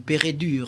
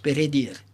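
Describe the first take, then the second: First: The last syllable has an 'ur' vowel. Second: The last syllable has an 'ir' vowel. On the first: The speaker calls it wrong. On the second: The speaker calls it right.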